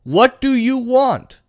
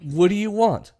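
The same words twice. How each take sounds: First: "What do you want" high, slow, word by word; "What do you want" as a raised, drawn-out plea; emphatic demand. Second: Said in the usual way. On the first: Acted. Acting out Biden pressing Republicans. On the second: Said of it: "and then he said".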